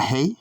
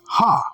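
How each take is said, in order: First: The word ends in an 'ay' vowel. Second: The word ends in an open 'ah' vowel. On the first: The speaker calls it wrong. "Not hey" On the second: The speaker calls it right. "correct pronunciation"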